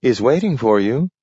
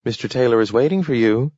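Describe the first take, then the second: First: Firm, higher, stress on waiting; a receptionist insisting to a reluctant visitor, firmer; insistent. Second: Put-on brisk, slightly higher office girl; a receptionist informing a visitor, brisk and a bit higher; polite receptionist. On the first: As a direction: press the point on waiting. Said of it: "insisted the girl". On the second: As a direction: announce it quickly and politely. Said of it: "said the girl". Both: A narrator's reading.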